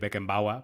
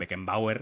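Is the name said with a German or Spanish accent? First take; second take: German; Spanish. First: The name is said with a German accent. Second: The name is said with a Spanish accent. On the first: It would come across as pretentious. The speaker calls it wrong. "va a sonar muy raro y muy pedante" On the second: It is the local, natural way to say it. The speaker calls it right. "nosotros diremos nuestro Beckenbauer"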